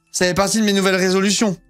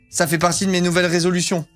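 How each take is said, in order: Both takes have the same delivery.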